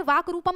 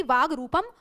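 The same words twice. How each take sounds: First: वाक रूपम with a k closing वाक; hard k. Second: वाग रूपम with a g closing वाग; voiced g. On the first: Teacher quizzing students on the difference, hard k in वाक. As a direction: say वाक रूपम, ending वाक on an unvoiced k. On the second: Teacher quizzing students on the difference, voiced g in वाग. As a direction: say वाग रूपम, voicing the final g of वाग. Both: Shown as a demonstration. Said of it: "में क्या different है".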